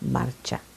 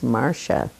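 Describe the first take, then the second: First: The middle consonant is a ch sound. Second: The middle consonant is not a ch sound. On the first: This is how the name is said in Italian. "C I is ch, is the C H sound" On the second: This is how the Chicago relatives said it. "they didn't know how to pronounce my name in that part of the country"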